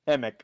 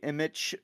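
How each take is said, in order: First: The spelled ch is said as a k sound. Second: The spelled ch is said as a ch sound. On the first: The speaker calls it right. "the C H is pronounced like a K" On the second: The speaker calls it wrong. "People often say Emich"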